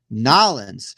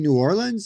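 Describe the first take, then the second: First: The name is squeezed short, local style. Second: The name is said in full, outsider style. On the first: "if you're going to say it proper, like somebody from New Orleans" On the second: "the way that we say New Orleans"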